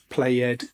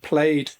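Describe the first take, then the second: First: The e is voiced, adding a second syllable. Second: The ending is a plain d, one syllable. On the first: The speaker calls it wrong. "not played" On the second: The speaker calls it right. "we do not pronounce the E"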